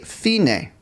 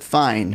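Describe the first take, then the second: First: It is said with Italian vowels and two syllables. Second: It is said like the English word fine. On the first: The speaker calls it right. "because it's from the Italian language. So we say fine" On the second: The speaker calls it wrong. "we don't pronounce it fine"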